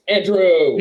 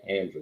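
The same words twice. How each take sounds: First: The name is exclaimed loudly with excited intonation. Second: The name is said flatly, without exclamation. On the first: The speaker calls it right. "You have to use the intonation" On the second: The speaker calls it wrong. "My name is not Andrew"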